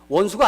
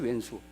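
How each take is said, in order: First: The first syllable is said as 'won'. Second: The first syllable is said as 'oen'. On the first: "원수가 아니죠" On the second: "왼수지 왼수"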